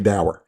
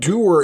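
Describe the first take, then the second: First: The word rhymes with 'sour'. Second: The word rhymes with 'poor'. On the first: This is the Americanized pronunciation. "it's Americanized. I've always heard it dour" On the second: This is the proper pronunciation. "doer is actually"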